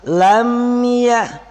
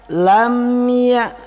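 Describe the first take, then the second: Both takes have the same delivery.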